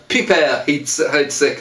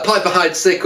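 First: "Piper Heids-, Heidsieck" drawn out slowly, French-style on "Piper"; "Piper" pronounced as insistent purists say it, pee-PAIR; alternative pronunciation. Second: Said in the usual way. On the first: Shown as a demonstration. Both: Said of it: "some people insist on pronouncing it".

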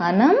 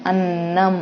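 First: Said in the usual way. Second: అన్నం with the nn held long; ఒత్తు on న, అన్నం with doubled nn. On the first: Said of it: "ఇక్కడ ఏమీ లేదు". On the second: Shown as a demonstration. Teacher showing pupils the doubled n, held nn. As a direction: lean on the nn of అన్నం. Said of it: "నాకి నా ఒత్తిస్తే నా".

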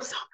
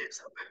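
First: Said in the usual way. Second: A hushed, breathless whispered Summer. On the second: Retold or imitated. Mother whispering Summer to her daughter before confessing.

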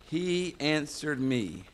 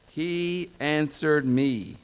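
First: He answered me, slow, with he stressed; emphatic quote. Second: He answered me, said slow, with answered loud and drawn out; emphatic quote. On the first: Preacher repeating the verse, stressing he. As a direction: give the weight to he, slowly. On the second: Preacher reading the psalm in capitals, stressing answered. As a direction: lean hard on answered, slowly. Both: Shown as a demonstration.

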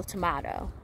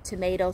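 First: "tomato" with a broad AH in the middle. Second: "Tomato" with a long AY in the middle. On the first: Speaker showing that areas differ, "tomato" said to-MAH-to. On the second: Speaker showing that areas differ, "Tomato" said to-MAY-to. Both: Shown as a demonstration. Two pronunciations of one word contrasted.

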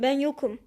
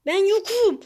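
First: Said in the usual way. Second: High, loud, panicky insistence; pleading shout. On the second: Real, not acted. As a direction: shout it higher, begging to be overlooked. Pleads with opponent, repeats louder. (telaşla, tiz ve yüksek sesle bağırarak)

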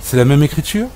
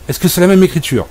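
First: Said in the usual way. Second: Même pushed higher, falling at the end; stress on même. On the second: Acted. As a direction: lean on même like a scolding teacher. Repeats, scolding the dog.

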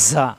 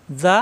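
First: যা with a hard, hissing z; hard whistled z. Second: যা with a soft, thin, lisped z; soft zal sound. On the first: Teacher contrasting letters for learners, hard whistled z. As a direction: press out a buzzing, airy z in যা. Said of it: "শক্ত". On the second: Teacher contrasting letters for learners, soft zal sound. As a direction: say যা softly with tongue tip at the teeth. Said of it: "নরম". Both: Shown as a demonstration.

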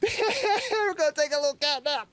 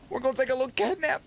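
First: High, slow and giggly; laughing cutesy repeat. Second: Said in the usual way. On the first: Acted. As his cat curls up to sleep, a slow laughing high coo. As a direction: savor each word through a laugh.

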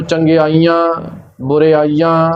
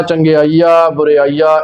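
First: ਚੰਗਿਆਈਆਂ ਬੁਰਿਆਈਆਂ ending in nasal "aan"; nasalised endings. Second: ਚੰਗਿਆਈਆ ਬੁਰਿਆਈਆ ending in pure oral "aa"; no nasalisation. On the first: Teacher showing what to avoid, nasal-ended ਚੰਗਿਆਈਆਂ ਬੁਰਿਆਈਆਂ. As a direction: send the last vowel of ਚੰਗਿਆਈਆਂ ਬੁਰਿਆਈਆਂ through the nose. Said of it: "ਇੱਦਾਂ ਪਾਠ ਨਹੀਂ ਕਰਨਾ". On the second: Teacher showing the correct reading, ਚੰਗਿਆਈਆ ਬੁਰਿਆਈਆ without nasal endings. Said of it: "ਬਿਨਾਂ ਬਿੰਦੀਆਂ ਤੋਂ ਪਾਠ". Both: Shown as a demonstration.

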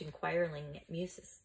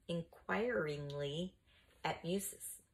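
First: Said in the usual way. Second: "inquiringly" drawn out slowly, syllable by syllable; slow careful repeat. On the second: A narrator's reading. Reader repeats "inquiringly" for the children, slowly.

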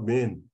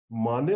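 First: "Main" slowly as MAYN; one-syllable pronunciation. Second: "Mane" slowly as MAH-nay; two-syllable pronunciation. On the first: Teacher asking anybody to choose, "Main" slowly as MAYN. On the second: Teacher checking pronunciation with class, "Mane" slowly as MAH-nay. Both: Shown as a demonstration. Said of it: "how to pronounce it".

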